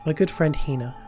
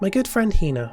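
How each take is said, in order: First: It is said in a slightly deeper voice. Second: It is said in the speaker's normal voice.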